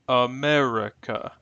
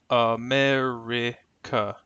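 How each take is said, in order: First: The letter i is said as a schwa. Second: The letter i is said as a short 'ih'.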